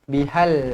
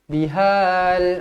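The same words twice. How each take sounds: First: The vowel before the l is short. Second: The vowel before the l is drawn out long. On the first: The speaker calls it right. "ada lam mati jadi matikan terus" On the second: The speaker calls it wrong. "jangan baca yukadzibu bihal mud"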